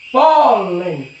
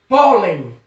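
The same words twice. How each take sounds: First: "pólen" with a long, drawn-out PÓ; stressed syllable stretched. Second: Said in the usual way. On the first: Shown as a demonstration. Teacher showing the strong syllable, "pólen" with stretched PÓ. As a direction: hold the first syllable of "pólen". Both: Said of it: "a sílaba pó, ela é mais forte".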